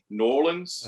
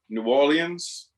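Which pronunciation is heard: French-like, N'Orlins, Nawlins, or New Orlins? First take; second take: N'Orlins; French-like. First: New is clipped to N, then Orlins. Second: Orleans is said in a French-like way. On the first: "N apostrophe O R L I N S" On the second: "which is closest to the original French"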